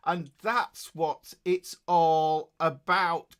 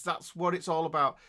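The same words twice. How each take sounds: First: Slow and emphatic, every word leaned on; stretched, emphatic slogan. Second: Said in the usual way. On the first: Real, not acted. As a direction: drive the motto home slowly.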